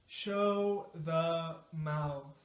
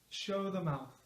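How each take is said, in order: First: The phrase is said at a moderate speed. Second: The phrase is said quickly, at natural speed. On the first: "now a little faster" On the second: "now at a natural speed"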